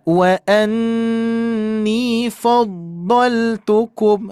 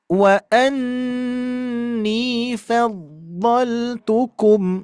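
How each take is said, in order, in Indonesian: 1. Bunyi fa itu berat dan tebal. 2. Bunyi fa itu ringan dan tipis. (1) "itu tebal ya" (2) "Fa-nya tetap tipis"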